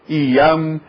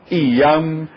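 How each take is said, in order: The two takes are said the same way.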